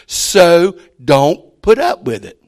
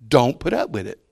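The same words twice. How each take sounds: First: "So don't put up with it" drawn out slow, louder, hitting "up"; stress on "So don't put up with it". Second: Said in the usual way. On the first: Shown as a demonstration. Preacher drives home "So don't put up with it" to the church, slow and louder.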